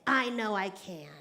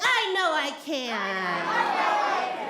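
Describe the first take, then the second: First: It is said a bit louder. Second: It is said very loudly.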